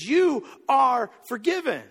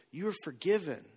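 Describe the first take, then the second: First: Higher, louder and slow, every word weighed; a ringing, deliberate pronouncement; emphatic declaration. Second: Softly, a touch quieter, gently; a hushed, tender release; tender forgiveness. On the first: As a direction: proclaim it so the whole room hears. Just looks in her eyes and says. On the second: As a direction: quietly reassure the weeping woman. Looks her in her teary eyes. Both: Retold or imitated.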